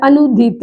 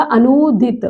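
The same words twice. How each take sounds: First: अनुदित with a quick nu; short middle vowel. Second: अनुदित with nū drawn out; long middle vowel. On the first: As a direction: say अनुदित as a-nu-dit, unstretched. (अनुदित में छोटा उ) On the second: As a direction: hold the nū in अनुदित. (अनुदित में लंबा ऊ) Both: Shown as a demonstration. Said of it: "उसका क्या हो जाएगा?".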